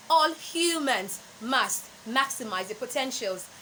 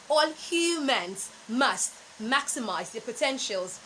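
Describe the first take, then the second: No difference in how they are said.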